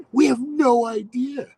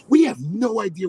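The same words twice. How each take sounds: First: High, loud, with "idea" stretched out slowly; emphatic repeat. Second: Said in the usual way. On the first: Real, not acted. Storyteller stressing the kids' cluelessness, emphatic and drawn out. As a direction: hammer "We have no idea", slow and high.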